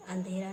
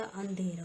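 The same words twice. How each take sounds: First: अंधेरा with the wrong nasal, andhera; vary the opening nasal of अंधेरा, short andhera; wrong pronunciation. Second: अंधेरा with drawn nasal opening, aandhera; correct pronunciation. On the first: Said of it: "नहीं होता". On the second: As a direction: linger on the first syllable of अंधेरा. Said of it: "होता है". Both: Shown as a demonstration.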